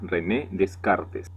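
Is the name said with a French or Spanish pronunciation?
Spanish. The name is said with Spanish pronunciation. The speaker calls it wrong.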